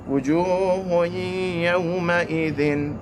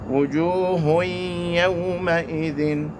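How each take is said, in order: Both takes have the same delivery.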